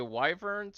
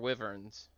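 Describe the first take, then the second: First: The first syllable sounds like 'why'. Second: The first syllable sounds like 'wiv'. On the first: "Do you pronounce it with a Y?" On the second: "Or do you say wiv?"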